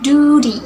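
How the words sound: It is said in an American accent. "In American accents"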